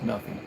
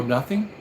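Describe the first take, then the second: First: "Nothing." low, soft and falling; flat confirmation. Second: Nothing asked with a rising tune; "Nothing?" rising, doubtful; disbelieving question. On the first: Doctor assuring [name] there is no charge, "Nothing." low and soft. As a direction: settle it: "Nothing." quiet, final. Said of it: "He goes". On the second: [name] doubting the free doctor, "Nothing?" rising. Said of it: "I go". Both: Retold or imitated.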